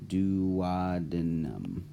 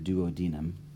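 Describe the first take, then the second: First: It is said with an American pronunciation. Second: It is said with a British pronunciation.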